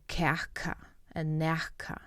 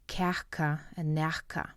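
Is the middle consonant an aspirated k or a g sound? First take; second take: aspirated k; aspirated k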